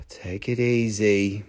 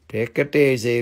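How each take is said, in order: First: Very low, drawn-out, soft; slow self-calming. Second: Low-pitched put-on voice; firmer self-calming. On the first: Pretend. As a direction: soothe yourself slowly, deep down. Calming himself after the rant. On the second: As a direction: say it low but at full volume. Repeats it in accented voice.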